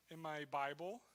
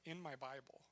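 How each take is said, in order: First: Said in the usual way. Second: "in" picked out, said more softly; stress on in. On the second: Shown as a demonstration. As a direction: lean on "in" in a softer aside. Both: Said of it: "which is a weird expression".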